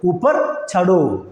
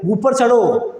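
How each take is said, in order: First: ഊപ്പർ ചടോ very slowly, syllable by syllable; slow repeat. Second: Said in the usual way. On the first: Shown as a demonstration. Teacher models ഊപ്പർ ചടോ slowly for Malayalam learners. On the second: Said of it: "മുകളിൽ കയറി എന്ന് പറയണം".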